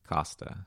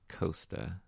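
First: The first vowel sounds like the vowel in cost. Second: The first vowel sounds like the vowel in coast. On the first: This follows the spelling. The speaker calls it right. "based off the spelling, right? Mm-hmm. C-O-S-T-A... should be pronounced Costa" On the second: This does not follow the spelling. The speaker calls it wrong. "Not Costa"

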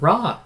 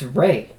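First: The vowel sounds like the one in 'raw'. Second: The vowel sounds like the one in 'ray'. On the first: This is the familiar American way of saying it. "it's just raw" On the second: This is said to be the Egyptian way of saying it. "The Egyptians pronounce it Ray"

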